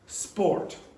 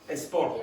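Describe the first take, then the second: First: It starts directly with s, making one syllable. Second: An extra vowel comes before it, making two syllables. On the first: The speaker calls it right. "it only has one syllable in English. So the pronunciation is sport" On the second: The speaker calls it wrong. "if you pronounce it like a Spanish speaker, you will get a sport, which is two syllables"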